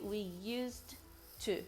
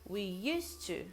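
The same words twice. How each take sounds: First: Used and to are pronounced as separate words. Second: Used and to are joined with one t sound. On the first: The speaker calls it wrong. "You don't say" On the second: The speaker calls it right. "you connect used with to... so you just pronounce it once. You say"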